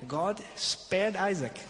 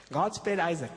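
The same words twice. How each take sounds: First: God spared Isaac, said slowly with spared stressed; drawn out God spared Isaac; slow emphasis. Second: Said in the usual way. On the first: Shown as a demonstration. Preacher stressing mercy, slow.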